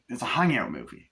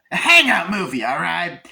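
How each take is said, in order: First: Said in the usual way. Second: Loud, high-pitched exclamation; emphatic shout. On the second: Real, not acted. Emphatic exclamation of the main point.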